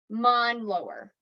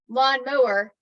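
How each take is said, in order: First: The word is said with its sounds swapped. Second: The word is said with its sounds in order. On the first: The speaker calls it wrong. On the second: The speaker calls it right.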